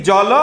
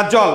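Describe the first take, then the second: First: জল ending in an open 'o'; final vowel sounded. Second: Said in the usual way. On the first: Shown as a demonstration. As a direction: say জল as two syllables, jo-lo. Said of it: "লয়ের সাথে অ থাকলে". (জল-কে 'জলো' করে বলা) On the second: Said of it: "Definitely এটা জল".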